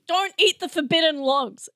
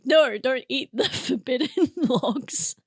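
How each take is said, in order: First: Raised-pitch mock warning; mock-firm warning. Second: Slow warning broken up by a laugh. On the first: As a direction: repeat it as a playful firm order. Repeats the joke warning firmly. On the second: Real, not acted. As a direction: crack up while warning them off. Joking warning, said through laughter.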